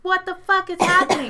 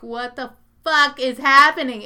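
First: High, loud pleading disbelief; mock panic. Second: Loud, incredulous mock yell; mock disbelief. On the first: Friend signalling with his eyes, high panicky disbelief. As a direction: squeak it out like a silent plea. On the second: Friend among dancing women, loud disbelief. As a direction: play the friend's stunned outburst. Friend stunned on dance floor.

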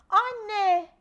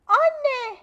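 First: Put-on loud alarmed child's call. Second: Put-on high, very loud desperate child's cry; louder call. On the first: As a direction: shout for mum from across the house. Child calls mother in alarm. (annesine bağıran telaşlı çocuk) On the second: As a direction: yell it, now frantic. Child calls mother again louder. (daha yüksek, çaresiz bir bağırış) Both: A narrator's reading.

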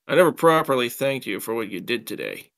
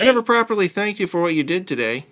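First: Said in the usual way. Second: Put-on high, quick girlfriend voice; high-pitched, brisk female character; girlfriend's voice. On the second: A narrator's reading. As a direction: pitch it well up for the girl's line. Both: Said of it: "I got my voices mixed up".

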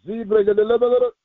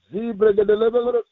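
No difference in how they are said.

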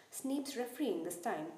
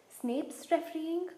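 First: Said in the usual way. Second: High, slow, shocked "refereeing?" rising; spluttering in disbelief. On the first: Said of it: "he spluttered". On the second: Acted. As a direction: splutter it out, stunned. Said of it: "he spluttered through a mouthful of mud".

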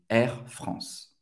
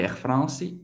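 First: "Air France" ending right on the S sound; correct silent final E. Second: "Air France" with an added ee ending, France-ee; wrong sounded final E. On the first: Teacher correcting the learners' mistake, silent final E. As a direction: stop "Air France" at S, no vowel after. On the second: Teacher showing the mistake to avoid, sounded final E. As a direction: tack a vowel onto the end of "Air France". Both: Shown as a demonstration. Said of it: "Não vai pronunciar o E no final".

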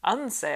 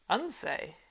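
First: Louder, higher repeat; puzzled echo. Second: A puzzled, thoughtful echo; musing, puzzled. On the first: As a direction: echo it again, a touch incredulous. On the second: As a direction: turn the word over as if puzzled. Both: A narrator's reading. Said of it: "he mused, as if puzzled".

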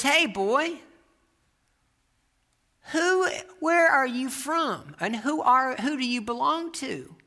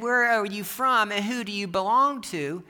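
First: High, slow, drawn-out challenge; preacher questioning boy. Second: Milder quote of a preacher's challenge, slightly raised; retold preacher's questions. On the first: Retold or imitated. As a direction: call the boy out with pointed questions. Old preacher questioning boy, acted out. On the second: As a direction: repeat the questions with a light touch of the preacher. Preacher's questions repeated more mildly.

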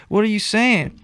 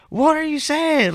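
First: Said in the usual way. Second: Much higher, slow yelled question; yelling. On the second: Retold or imitated. Teen yelling from his bedroom to his dad, high and slow. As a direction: yell it across the house at your dad. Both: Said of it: "I'm yelling from my room".

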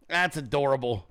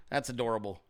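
First: Said in the usual way. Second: Low, soft sarcastic murmur; condescending. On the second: Pretend. Streamer patronizing the chat, low sarcastic murmur.

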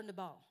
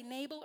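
First: Nabal said nuh-BAHL, stress on the second syllable. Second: Nabal said NAY-bul, stress on the first syllable. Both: Shown as a demonstration. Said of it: "Do you guys say Nabal or Nabal?".

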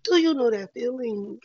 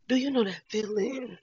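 First: "Do you know that feeling?" said again, louder and more pressing; louder insistent repeat; louder emphatic repeat. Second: Said in the usual way. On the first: Real, not acted. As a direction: press the question home, louder.

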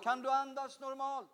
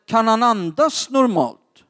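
First: Imitating the wife, faint and higher; very soft, far-off voice; distant relayed question. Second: Said in the usual way. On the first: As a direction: ask it as if away from the phone. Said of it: "Hon frågade". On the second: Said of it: "Så jag frågade".

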